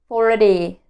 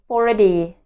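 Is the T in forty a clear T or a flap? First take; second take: flap; flap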